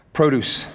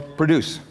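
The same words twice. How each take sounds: First: "produce" as PRO-duce, with a long O; "produce" with the first vowel full, as in "pro"; stress on first syllable. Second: "produce" as pruh-DUCE, weak first vowel; "produce" with a reduced first syllable, weight on DUCE; stress on second syllable. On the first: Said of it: "put the emphasis on the wrong syllable". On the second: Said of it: "depends on how you, uh, pronounce it". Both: Shown as a demonstration.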